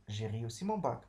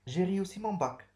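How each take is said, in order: First: Said in the usual way. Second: High, loud and proud; a bright declaration of good news; proud announcement. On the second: Shown as a demonstration. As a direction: announce your success with pride. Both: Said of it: "Je déclare que j'ai réussi mon bac".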